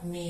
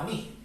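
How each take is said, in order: First: The word is said weakly, without stress. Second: The word is said strongly, carrying stress. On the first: It is the possessive meaning my. "Fíjate que es átono, es decir, sin fuerza" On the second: It is the pronoun meaning me. "ese mí que suena mucho más fuerte dentro de la frase"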